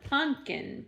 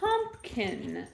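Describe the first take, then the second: First: It is said with a short pun sound. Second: It is said with a full pump sound. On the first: The speaker calls it right. "P U N K I N" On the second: The speaker calls it wrong. "not Pumpkin"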